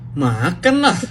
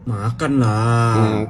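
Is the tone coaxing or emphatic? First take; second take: emphatic; coaxing. First: It sounds firm and emphatic. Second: It sounds gentle and coaxing. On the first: Of course one will eat. "artinya pasti" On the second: Persuading someone to go ahead and eat. "artinya lu bujuk orang untuk makan"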